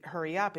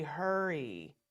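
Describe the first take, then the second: First: Said in the usual way. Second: A drawn-out, falling "Hurry"; slow lazy hurry. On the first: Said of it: "if you say". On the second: Shown as a demonstration. Teacher showing a limp, drawn-out "Hurry". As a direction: say "Hurry" slow and soft so nobody moves. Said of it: "they don't really think that you're saying".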